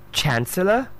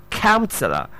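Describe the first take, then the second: First: "chancellor" with ch and an open a; distinct pronunciation. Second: "counselor" with a hard k and ow vowel; distinct pronunciation. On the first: Teacher contrasting the word chancellor, careful pronunciation. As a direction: say "chancellor" higher, rising as first of two. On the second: Teacher giving the other one, careful pronunciation. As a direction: say "counselor" as COWN-suh-luh, falling. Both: Shown as a demonstration. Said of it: "the other one is different from".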